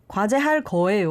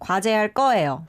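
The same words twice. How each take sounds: First: The consonant starting 거 is plain. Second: The consonant starting 거 is tense, doubled. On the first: The speaker calls it wrong. "I think he said 과제할" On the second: The speaker calls it right. "it becomes more like the double consonant"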